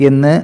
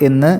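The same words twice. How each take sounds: Both takes have the same delivery.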